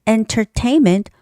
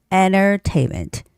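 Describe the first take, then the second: First: The middle T is clearly pronounced. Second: The middle T is dropped, leaving an N. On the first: "entertainment with a hard T" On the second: "you just sort of omit that T sound and make it an N sound"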